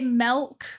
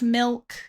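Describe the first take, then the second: First: The vowel sounds like the 'e' in 'bed'. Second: The vowel sounds like the 'i' in 'bit'. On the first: "I say milk with an E" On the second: "instead of milk"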